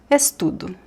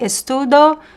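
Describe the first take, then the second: First: The final vowel is a weak 'u' sound. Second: The final vowel is a full 'o' sound. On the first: "we pronounce O as U here ... the most common pronunciation" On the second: "You could say estudo. It's not wrong"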